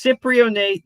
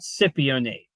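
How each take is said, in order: First: The word is said with an R sound. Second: The word is said without an R sound. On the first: "A J says it's Cyprionate" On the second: "There is no R"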